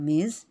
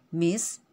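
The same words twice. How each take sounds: First: The word ends with a buzzing Z sound. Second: The word ends with a hissing S sound. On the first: The speaker calls it wrong. "bukan Miss" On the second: The speaker calls it right. "dengan bunyi huruf S"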